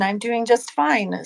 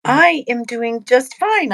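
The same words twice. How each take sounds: First: Said in the usual way. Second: Sing-song and a little higher and louder; happy. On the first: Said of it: "repeat settling into usual voice". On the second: Real, not acted. Co-host answers the host's greeting in a happy lilt. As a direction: answer brightly, lifting the line. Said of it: "friendly, happy voice".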